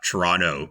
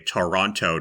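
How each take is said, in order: First: The second T sound is left out. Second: The second T sound is clearly pronounced. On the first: The speaker calls it wrong. "not Toronto, because people in Toronto, they often leave out the second T" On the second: The speaker calls it right. "make sure that you say Toronto"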